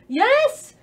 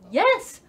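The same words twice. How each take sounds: First: The yes is fully in a posh British accent. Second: The yes is mostly in a plain voice. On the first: The speaker calls it right. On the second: The speaker calls it wrong.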